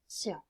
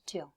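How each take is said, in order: First: The ending starts with an S sound. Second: The ending starts with a T sound. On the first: The speaker calls it right. "T I O N is pronounced like sion" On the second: The speaker calls it wrong. "and not tion"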